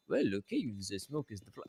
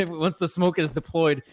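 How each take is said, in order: First: Mock outrageous French accent; lightly put-on French accent, softer. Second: Said in the usual way. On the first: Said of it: "that outrageous French accent". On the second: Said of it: "I don't know why I'm doing that outrageous French accent".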